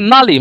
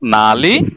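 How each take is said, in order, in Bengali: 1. এটা পতনশীল চতুর্থ টোনে বলা হয়। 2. এটা নিম্নগামী তৃতীয় টোনে বলা হয়। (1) "নালি মানে ফোর্থ টোনের" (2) "এটা দুইটার মানে হচ্ছে কোথায়"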